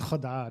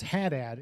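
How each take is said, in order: First: The name is said in a Lebanese pronunciation. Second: The name is said in a Massachusetts accent. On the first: "technically it's Haddad, I think is how it's supposed to be said back home" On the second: "my last name is Haddad in Massachusetts"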